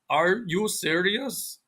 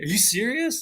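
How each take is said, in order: First: Every sound is said fully, with stilted intonation. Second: Some sounds are dropped, with natural native intonation. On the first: "think of a foreigner going" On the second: "you're deleting certain sounds, but that the sounds a native speaker deletes, and your intonation is like a native speaker"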